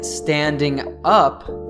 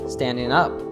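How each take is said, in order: First: The word ends with a full 'ing' sound. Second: The g is dropped, linking into 'up'. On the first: "instead of saying standing up" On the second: "Justin says standing up"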